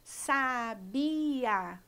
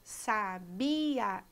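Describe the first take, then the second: First: The i and a fall in separate syllables. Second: The i and a fall in separate syllables.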